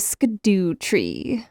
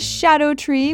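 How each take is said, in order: First: The first part sounds like 'skidoo'. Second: The first part sounds like 'shadow'. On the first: The speaker calls it wrong. "I am guilty of pronouncing it Skidoo Tree" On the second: The speaker calls it right. "it's pronounced shadow, and so it's actually the Shadow Tree"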